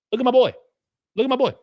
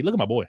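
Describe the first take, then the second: First: Higher, louder proud hype; proud hype for a donor's gift; excited hype. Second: Said in the usual way. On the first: Real, not acted. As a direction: show him off to the chat.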